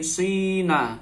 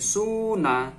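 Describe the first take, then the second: First: The first vowel is a clear 'ee' sound. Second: The first vowel is a clear 'oo' sound. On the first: "fa fi'il dibaca kasroh" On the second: "fa fi'il boleh didomah"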